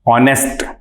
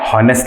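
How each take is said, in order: First: The word starts with a vowel, no h. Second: The word starts with an h sound. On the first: The speaker calls it right. "ये ऑनेस्ट कहलाता है" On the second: The speaker calls it wrong. "हॉनेस्ट नहीं"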